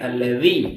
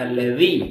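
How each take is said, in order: First: The middle consonant lies between d and z. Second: The same.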